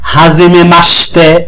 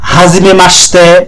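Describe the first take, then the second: The two takes are said the same way.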